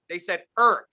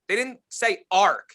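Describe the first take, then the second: First: Irk with an ir vowel like irk; Irk, the family's way; Irk as they said it. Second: Ark with an open ar vowel, slow; Ark, the expected reading; Ark as it's not said. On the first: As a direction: land hard on Irk as ir, not ar. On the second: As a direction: say Ark drawn out and deliberate. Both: Shown as a demonstration.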